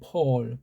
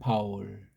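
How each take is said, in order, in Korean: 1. 이 이름은 o 모음이 있는 한 음절입니다. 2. 이 이름은 두 음절입니다. ba, 그다음 ul. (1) "이걸 오자 발음을 하죠" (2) "바울 그러잖아요"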